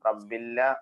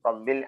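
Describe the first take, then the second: First: The L is doubled and an extra vowel added. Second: The word ends in a clear, closed L. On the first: The speaker calls it wrong. "റബ്ബില്ല ആവരുത്" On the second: The speaker calls it right. "സുക്കൂനുള്ള ലാമിനെ വെളിവാകണം"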